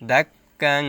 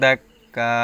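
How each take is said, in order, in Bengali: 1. শব্দটি নাসিক্য ধ্বনি দিয়ে শেষ হয়। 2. শব্দটি একটি দীর্ঘ টানা স্বর দিয়ে শেষ হয়।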